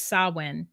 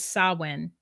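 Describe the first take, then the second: First: It is pronounced differently from how it is written. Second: The same.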